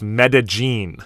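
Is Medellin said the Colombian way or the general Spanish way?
Colombian. It is said with a Colombian pronunciation. "for people from Colombia, it's Medellin"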